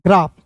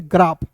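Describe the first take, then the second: First: ग्राफ said as 'graef', open ae vowel; wrong pronunciation. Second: ग्राफ with a long 'aa' vowel; long back 'aa' in ग्राफ; correct pronunciation. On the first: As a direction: say ग्राफ with the vowel of English 'cat'. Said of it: "ग्राफ नहीं पढ़ेंगे". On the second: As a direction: say ग्राफ as 'graaf', like 'father'. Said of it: "इसे पढ़ेंगे ग्राफ". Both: Shown as a demonstration.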